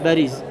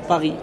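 First: The word begins with a B sound. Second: The word begins with a P sound. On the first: The speaker calls it right. "on dit Bariz" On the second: The speaker calls it wrong. "on ne dit pas Paris"

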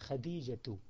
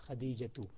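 Both takes have the same delivery.

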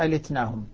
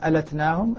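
First: The vowel after the l is 'i'. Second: The vowel after the l is 'a'. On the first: "ابن كثير" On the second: "الباقون بفتح اللام"

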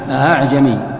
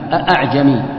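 First: The second glottal stop is softened. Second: Both glottal stops are pronounced fully. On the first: "بتسهيل الثانية بحيث أنك ما تنطق الثانية" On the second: "تحقيق الهمزتين... أن تقرأ هكذا"

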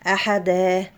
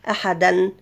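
First: The word ends with a long 'daa' vowel. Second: The word ends with a nasal 'dan' sound.

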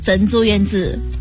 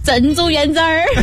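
First: Said calmly and flatly, with no final er sound. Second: Said with a winding tune and a final er sound. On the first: "就贵州人会说的是" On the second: "但是四川人说的是珍珠圆子儿"

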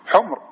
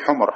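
First: There is no vowel between m and r. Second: A short vowel comes between m and r. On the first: It means red ones, the plural of red. The speaker calls it right. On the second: It means donkeys, the plural of donkey. The speaker calls it wrong. "ولا تقول حمر"

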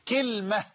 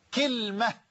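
No difference in how they are said.

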